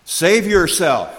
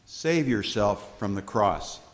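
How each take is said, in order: First: Much higher, louder, slow sneer; scoffing taunt. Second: Said in the usual way. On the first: Acted. Leaders scoffing at Jesus on the cross, loud taunt. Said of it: "the leaders scoffed". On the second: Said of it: "plain restatement after the taunts".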